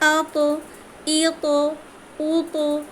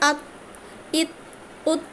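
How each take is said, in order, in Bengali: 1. শেষের t একটি প্রতিধ্বনিময় ঝাঁকুনি দিয়ে ছাড়া হয়। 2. শেষের t হঠাৎ থেমে যায়, কোনো রিলিজ ছাড়া। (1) "আওয়াজটা ছেড়ে দিই, কত ইজি লাগছে পড়তে" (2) "এটা জজম দিয়ে পড়লে এভাবে হতো"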